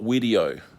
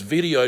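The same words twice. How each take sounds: First: The word is said in a Scandinavian-sounding accent. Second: The word is said in a plain accent. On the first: The speaker calls it wrong. "not video, but anyways, with, with her Scandinavian accent" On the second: The speaker calls it right. "It's video"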